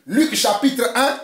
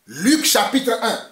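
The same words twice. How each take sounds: The two takes are said the same way.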